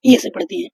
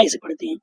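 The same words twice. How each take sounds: First: ए said as a plain long e, pitched higher; teacher shows the wrong reading ए before correcting; wrong vowel ए. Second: Teacher models the correct ऐ for students; right vowel ऐ. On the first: गलत उच्चारण: ए. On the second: सही उच्चारण: ऐ. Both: Shown as a demonstration. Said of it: "ए से नहीं, ऐ से पढ़ते हैं".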